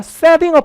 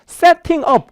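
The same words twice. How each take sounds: First: The t is a soft d-like flap. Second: The t is a clear, crisp t sound. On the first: "미국 가면 뭐라고요? setting up 하셔도 되고요" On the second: "그럼 영국식인 거예요"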